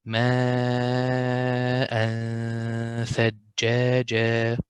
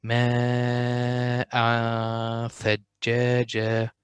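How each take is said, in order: First: ماء ثجاجا slowly with a light nasal tanween; correct light ghunna. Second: ماء ثجاجا with a wrongly heavy nasal tanween; wrong heavy ghunna. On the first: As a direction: keep the tone thin before tha. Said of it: "so it will be". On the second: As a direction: show the mistake by darkening the tone. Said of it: "Don't say it like this". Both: Shown as a demonstration.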